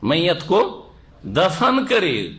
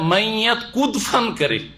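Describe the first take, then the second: First: Ko is said as a separate word before dafan. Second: Ko is run together with dafan as kudfan. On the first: The dead person is buried. The speaker calls it right. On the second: The dead person jumps about. The speaker calls it wrong.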